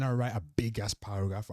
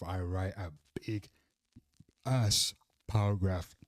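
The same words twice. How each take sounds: First: Said in the usual way. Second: BIG, then a long pause before ASS paragraph; emphatic pauses. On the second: Real, not acted. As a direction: drop lower on BIG, pause, land hard on ASS paragraph. Repeats phrase broken up for emphasis.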